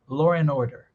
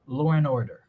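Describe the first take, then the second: First: An r sound joins law and and. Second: An r sound joins law and and.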